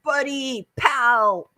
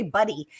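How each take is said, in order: First: Higher-pitched, hammed-up buddy greeting; playful caricature of male chumminess; mock guy talk. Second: Said in the usual way. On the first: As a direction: parody how guys greet each other. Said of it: "You know how guys are like".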